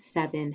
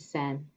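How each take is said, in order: First: The word is said in full with two syllables. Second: The middle is dropped, leaving one syllable.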